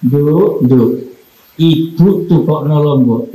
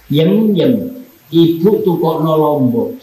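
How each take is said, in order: First: Tender mother's call. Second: Curt mother's call. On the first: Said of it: "Sama begini". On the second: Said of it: "Anaknya umpama namanya Tulkiem". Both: Shown as a demonstration.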